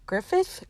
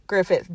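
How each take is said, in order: First: "Griffith?" jumping high with a rising end; questioning. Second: Said in the usual way. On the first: Real, not acted. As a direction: say "Griffith?" softly, pitched up as a question. Checking the surname aloud.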